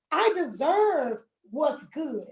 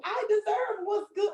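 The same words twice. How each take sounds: First: Slow, firm I deserve what's good; slow declaration of worth; slow affirmation. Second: Said in the usual way. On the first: Shown as a demonstration. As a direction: plant each word, slowly. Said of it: "slow emphatic affirmation". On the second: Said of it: "repeated quicker".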